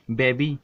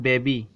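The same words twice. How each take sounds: First: Slow teacher model of बेबी; model word. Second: बेबी again with a falling close; model word. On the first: Teacher shows students how बेबी ends, slowly. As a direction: say बेबी slowly, ending on a clear long ee. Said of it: "उच्चारण के तौर पे बोला जाता है". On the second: Teacher answers his own question with बेबी, falling. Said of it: "क्या बोलते हैं?". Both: Shown as a demonstration.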